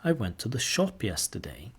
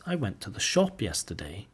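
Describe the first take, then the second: First: Shop stressed again, rising. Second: Shop stressed with a rise. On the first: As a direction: lean on the word shop, softly. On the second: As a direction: lean on the word shop. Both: Shown as a demonstration. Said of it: "Put the sentence stress or the main stress on shop".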